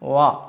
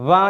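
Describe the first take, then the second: First: The w sound is said softly. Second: The w sound is said hard. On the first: The speaker calls it right. "വളരെ മൃദുവായി" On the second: The speaker calls it wrong. "ഉച്ചരിക്കാൻ പാടില്ല"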